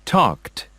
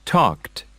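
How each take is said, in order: Both takes have the same delivery.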